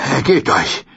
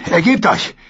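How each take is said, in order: First: Only slightly raised, controlled order; firm demand. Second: Shouting demand. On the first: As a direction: say it firmly, no shout. Brienne fordert Aufgabe erneut. (bestimmt, kaum erhoben) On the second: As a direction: bark it down at the beaten man. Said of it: "und schrie". (laut geschrien) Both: Acted.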